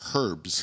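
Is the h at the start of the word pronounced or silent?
pronounced. The word starts with an h sound. "in the UK, they call them herbs. ... there is a fucking H in the word"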